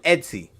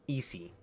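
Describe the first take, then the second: First: The name has a t sound before the s. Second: The name has no t sound before the s. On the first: The speaker calls it wrong. "I was calling him Etsy" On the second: The speaker calls it right. "Is that how you pronounce that"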